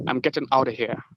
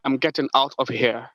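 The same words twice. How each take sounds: First: "out of here" run together as "outta here"; American-style reduced "out of here"; American linked form. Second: "out of here" with a clear T and full "of"; careful, complete "out of here"; full unlinked form. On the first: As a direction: soften the T and drop the V in "out of here". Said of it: "they usually say". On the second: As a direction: pronounce each word in "out of here" separately. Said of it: "when I say". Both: Shown as a demonstration.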